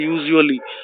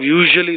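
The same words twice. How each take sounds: First: The zh sound is replaced by another sound. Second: The middle consonant is a clear zh sound. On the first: "they'll say usually" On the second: "instead of usually"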